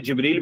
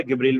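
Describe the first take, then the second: First: जिब्रील opening on j as in jam; standard Jeem pronunciation. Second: गिब्रील opening on g as in give; dialect Jeem pronunciation. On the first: Teacher showing students a spelling of the angel's name, जिब्रील said with j. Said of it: "because of जीम pronunciation". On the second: Teacher showing how Egyptians say the angel's name, गिब्रील said with hard g. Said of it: "That's Gabriel because of जीम pronunciation". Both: Shown as a demonstration.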